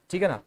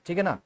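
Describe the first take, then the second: No difference in how they are said.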